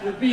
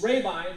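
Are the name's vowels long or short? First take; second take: short; long. First: The name lacks the long A and I. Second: The name has a long A and long I. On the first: The speaker calls it wrong. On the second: The speaker calls it right. "long A, long I"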